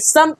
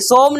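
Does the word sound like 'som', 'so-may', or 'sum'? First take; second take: sum; som. First: The vowel is a short unrounded 'u' sound. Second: The vowel is a rounded 'o' sound. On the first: The speaker calls it right. "सम पढ़ते हैं" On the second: The speaker calls it wrong. "सोम नहीं"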